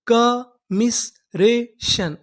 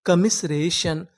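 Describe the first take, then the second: First: Very slow, each syllable drawn out; कमिसरेशन stretched syllable by syllable. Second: Said in the usual way. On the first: Shown as a demonstration. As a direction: spell out कमिसरेशन slowly for students. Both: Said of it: "पूरी meaning".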